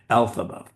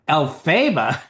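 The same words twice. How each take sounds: First: The stress falls on the first syllable. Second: The stress falls on a later syllable. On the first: The speaker calls it right. "stress on the first syllable" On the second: The speaker calls it wrong. "Are you nuts?"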